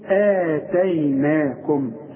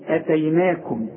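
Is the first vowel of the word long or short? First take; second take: long; short. First: The first vowel is drawn out to full length. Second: The first vowel is short, with no lengthening. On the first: "الهمزة في وسط السطر وبعدها المد بتاعها تقول إيه؟" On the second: "الهمزه دي لو فوق الالف تقول ايه؟"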